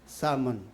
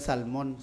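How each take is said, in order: First: The L sound is silent in the word. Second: The L sound is pronounced in the word. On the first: The speaker calls it right. "silent L" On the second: The speaker calls it wrong. "Hindi na salmon"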